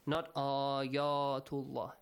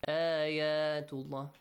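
First: The a sound is heavy and dark. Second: The a sound is light and open. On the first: The speaker calls it wrong. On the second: The speaker calls it right. "With that light sound. An a sound"

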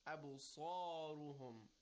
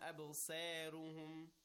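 First: The sad and ra sound heavy and rounded. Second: The sad and ra sound light and thin. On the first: The speaker calls it right. "Rounded mouth with a heavy sound" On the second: The speaker calls it wrong. "It's not"

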